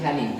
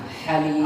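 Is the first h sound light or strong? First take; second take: light; strong. First: The first h sound is light and weak. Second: The first h sound is strong and breathy. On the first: The speaker calls it wrong. "Masih halim" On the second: The speaker calls it right. "haknya ya, kurang ya"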